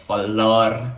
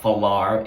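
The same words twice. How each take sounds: First: Falar ending in a breathy H-like r; Portuguese falar. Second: Falar with a rolled Spanish r; wrong falar. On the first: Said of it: "it's got an H sound". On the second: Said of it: "So it's not falar". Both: Shown as a demonstration.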